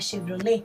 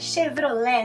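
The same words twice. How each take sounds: First: The final vowel is a closed e sound. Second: The final vowel is an open e sound. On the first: The speaker calls it wrong. "não é Chevrolet?" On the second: The speaker calls it right. "é Chevrolet"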